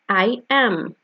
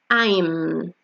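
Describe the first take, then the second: First: Both words are said fully and separately. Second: The two words are joined into one syllable.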